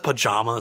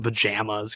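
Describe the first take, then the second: First: The word is said with a British pronunciation. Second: The word is said with an American pronunciation. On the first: This is how an English person says it. "He probably says pajamas ... because he's fucking English" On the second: This is how an American says it. "as opposed to pajamas"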